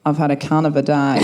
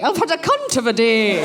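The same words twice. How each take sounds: First: Low, broad Australian accent; Australian, with wide vowels on "day". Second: Prim, posh Scottish schoolmistress; genteel Scots teacher voice; Miss Jean Brodie. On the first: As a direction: drop it low in an Aussie twang. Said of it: "in my original Australian accent". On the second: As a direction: deliver it in a refined Scottish accent. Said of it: "kind of my Miss Jean Brodie". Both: Shown as a demonstration.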